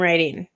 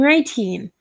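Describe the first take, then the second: First: The middle T sounds like a soft D. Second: The middle T is pronounced clearly. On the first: "Where I would normally say" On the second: "I have to actually pronounce a lot of my sounds"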